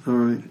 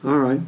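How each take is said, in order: Both takes have the same delivery.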